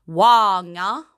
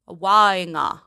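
First: "wanga" with a quick, light final a; "wanga", final a not held; short final a. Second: "wanga" with the final a drawn out; "wanga", final a held long. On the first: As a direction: clip the last a of "wanga" short. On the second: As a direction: stretch the last a of "wanga". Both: Shown as a demonstration. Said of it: "not hold the A".

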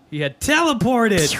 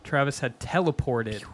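First: TELEPORTED punched high and loud; teleported exclaimed. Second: Said in the usual way. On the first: A narrator's reading. Reader revealing Travis had teleported, emphatic repeat. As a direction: hit TELEPORTED like a big reveal. Reading aloud, repeats line with force.

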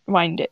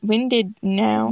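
First: "winded" with a long i; "winded" as in winding a clock; long-i pronunciation. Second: "winded" with a short i; "winded" as in out of breath; short-i pronunciation. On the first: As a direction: say "winded" to rhyme with "minded". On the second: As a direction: say "winded" like wind that blows. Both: Shown as a demonstration. Trying out how to read it.

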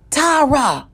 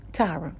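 First: Loud, higher-pitched call of a name; raised voice, demanding attention; insistent shout. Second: Soft, low-volume call of a name; hushed, patient call; still small voice. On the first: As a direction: call out sharply to break through. Same call repeated, now shouted. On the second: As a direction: quietly try to get their attention. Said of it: "spoke to me in a still, small voice". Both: Retold or imitated.

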